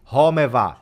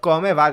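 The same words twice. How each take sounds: First: "Come va" with C turned to H, homɛ va; "Come va" said as "Home va"; Livorno accent. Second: "Come va" with a hard K, kɔme va; "Come va" with a clean K; standard Italian. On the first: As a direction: breathe the C into an H like in Livorno. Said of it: "they're saying". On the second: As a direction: keep the K crisp in "Come". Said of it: "Instead of". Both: Shown as a demonstration.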